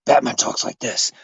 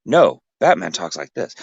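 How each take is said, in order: First: Lower, softer Batman take; first Batman voice attempt, low and quiet. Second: A slightly less low Batman take; correcting with a different Batman voice; rival Batman voice. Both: Shown as a demonstration.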